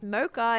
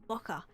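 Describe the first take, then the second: First: The first syllable has a long vowel, unlike 'mock'. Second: The first syllable sounds short, like 'mock'. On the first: This is the form people around the speaker now understand. "and now it's just mocha" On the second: This is how it is said in Australia. "in Australia we we pronounce it mocha, like with a hard like K, like like mock mocha"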